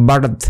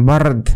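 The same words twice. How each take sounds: No difference in how they are said.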